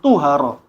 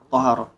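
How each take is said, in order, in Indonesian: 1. Vokal pertama adalah bunyi u. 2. Vokal pertama adalah bunyi a. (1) "bukan tuhara"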